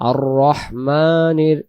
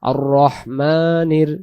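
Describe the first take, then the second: No difference in how they are said.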